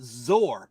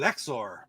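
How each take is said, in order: First: It begins with a z sound, one syllable. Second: It begins with an 'ex' sound, two syllables. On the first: This is the speaker's own way of saying it. "I called it Zor" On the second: Someone else said it this way. "I've heard somebody else uh, pronounce it Exor"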